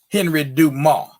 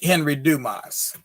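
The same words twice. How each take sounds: First: The final S of Dumas is silent. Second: The final S of Dumas is pronounced. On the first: The speaker calls it right. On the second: The speaker calls it wrong.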